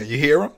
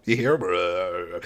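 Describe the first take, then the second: First: Louder, rising playful question; quick upbeat question; mock pointing out. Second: Slow, lower, stretched question; slow lingering mock question; drawn-out repeat. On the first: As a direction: tease it, eager and bright. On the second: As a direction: draw it out, dragging each word. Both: Mock survivor pointing at zombie.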